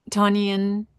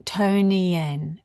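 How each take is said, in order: First: Tonian with an open "ah" in the first syllable, TAH-nee-un; first-attempt mispronunciation. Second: Tonian with a long "oh" in the first syllable, TOH-nee-un; corrected pronunciation. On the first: Host greeting a chat viewer by name, mispronounced. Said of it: "I nearly got it right". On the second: Host reading a viewer's name as they say it's pronounced, corrected. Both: Real, not acted.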